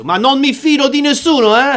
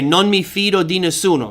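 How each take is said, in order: First: Put-on higher, lively Italian accent on "Ma non mi fido di nessuno, eh?". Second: Said in the usual way. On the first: Teacher imitating his Italian students, in an Italian accent. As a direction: ham up the Italian lilt like a student in Italy. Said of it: "they would say it in a very nice accent using hand gestures". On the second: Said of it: "they would say it in a very nice accent".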